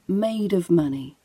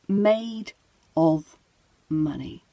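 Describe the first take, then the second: First: The words run together, with a weak 'of'. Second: Each word is said separately, with a full 'of'. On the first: "let's say it how we would say it in conversation ... And now we say it together" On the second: "let's say the phrase slowly ... So individually, we would say made of money"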